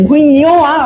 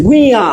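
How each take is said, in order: First: "ভুইয়ো আ" with a separate "yo" before aa; ঞ wrongly spelt out. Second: "ভুইয়া" run together, ending in aa; ঞ sounded as aa. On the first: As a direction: break it up as "ভুইয়ো আ", sounding the letter's name. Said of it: "ইওর মতো উচ্চারণ করছি?". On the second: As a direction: say "ভুইয়া" as one word with no "yo". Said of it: "এরকম উচ্চারণ হচ্ছে". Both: Shown as a demonstration.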